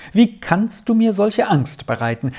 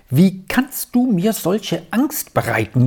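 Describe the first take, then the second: First: Much higher, distraught plea; agitated cry. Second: Higher, fretful lament; anxious wail. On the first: Aunt horrified at her brother's words, pleading in alarm. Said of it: "rief die erregte Tante einmal ums andere aus". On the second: Aunt to her brother, frightened by his late return. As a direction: wring the words out in worry. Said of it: "jammerte sie auf". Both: A narrator's reading.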